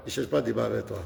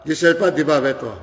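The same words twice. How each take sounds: First: Much softer, lower repeat of the same line; muttered to himself, firm; quiet repeat. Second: Said in the usual way. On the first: Real, not acted. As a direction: drop the voice low and soft on pas.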